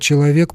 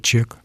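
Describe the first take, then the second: First: All syllables of the word are pronounced clearly. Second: The word is squeezed into one short syllable.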